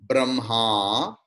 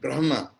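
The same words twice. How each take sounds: First: The final vowel is prolonged. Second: The final vowel is short. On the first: It names the person who is the creator. "when at the end the vowel will be prolonged" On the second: It names the all-pervading Brahman. "which is short vowel"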